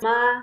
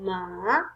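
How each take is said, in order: First: The pitch stays high and level. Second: The pitch dips down and then rises. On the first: "the first tone is flat tone" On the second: "the third tone is going down and up"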